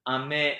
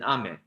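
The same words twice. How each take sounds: First: The pitch starts low and rises. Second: The pitch starts high and falls. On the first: "ame is low high" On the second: "ame is high low"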